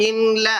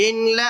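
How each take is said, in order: Both takes have the same delivery.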